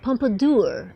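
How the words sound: It is said with a put-on Idaho pronunciation.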